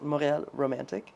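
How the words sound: Montreal is pronounced the French way.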